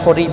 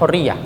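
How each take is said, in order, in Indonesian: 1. Kata ini diucapkan dengan akhiran dialek yang disingkat. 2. Kata ini diucapkan dengan akhiran baku yang lengkap. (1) "kalau menyebutnya mereka hurri, bukan hurriyah" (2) "Kalau bacanya kan hurriyah"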